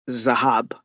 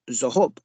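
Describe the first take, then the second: First: The last vowel sounds like 'ah'. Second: The last vowel sounds like 'oh'. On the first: This is the common pronunciation today. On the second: This is an ancient dialect pronunciation. "a lot of the Israelis would have said Zahob, not Zahab"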